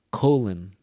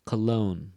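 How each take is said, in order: First: "Colon" with "co" punched and louder; stress on first syllable. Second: "Cologne" with "logne" held longer and stronger; stress on second syllable. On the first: Teacher repeating the pair so students hear "Colon" stressed at the front. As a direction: hit the "co" in "Colon" hard. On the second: Teacher repeating the pair so students hear "Cologne" stressed at the end. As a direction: keep "co" short, lean on "logne". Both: Shown as a demonstration. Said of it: "Listen again".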